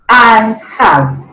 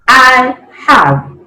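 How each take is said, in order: The two takes are said the same way.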